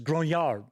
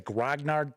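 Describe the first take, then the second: First: The word is pronounced with a French-style reading. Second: The word is pronounced with an English-style reading. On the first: The speaker calls it right. "It's grognard. ... don't you know it's French" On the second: The speaker calls it wrong. "I notice a lot of people say grognard"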